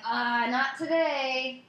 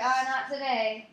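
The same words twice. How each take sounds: First: Slow, high, teasing "not today"; coy drawn-out brush-off; flirty drawl. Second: High "Oh, not today" stretched a little; flirty drawl. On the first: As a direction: stretch "Uh, not today" out coyly. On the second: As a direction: tease it out coyly. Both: Retold or imitated. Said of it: "And I was like".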